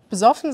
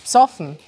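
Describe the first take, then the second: First: The first syllable keeps its vowel: be-soffen. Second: The first vowel is dropped: psoffen. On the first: This is the standard German form. "Besoffen sagen wir auch" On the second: This is the South Tyrolean form. "Ihr sagt dann ohne E"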